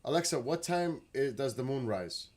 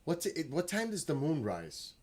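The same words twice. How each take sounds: First: Loud, high call to the speaker; command voice. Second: Higher, louder question to a smart speaker; raised voice. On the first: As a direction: project it so Alexa hears. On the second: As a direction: call the question across the room. Asking Alexa aloud across room. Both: Real, not acted.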